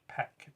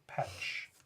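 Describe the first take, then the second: First: The word ends with a k sound. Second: The word ends with a ch sound. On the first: "is pronounced Peck" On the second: "I had always pronounced it Petch"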